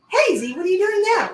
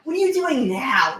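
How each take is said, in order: First: It sounds curious and interested. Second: It sounds exasperated and dismissive.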